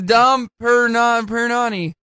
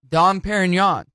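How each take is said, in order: First: The name ends with an added 'nee' syllable. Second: The name ends in a nasal 'non' sound. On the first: The speaker calls it wrong. "She goes, it's Dom Perignani" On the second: The speaker calls it right. "Which is how you pronounce it"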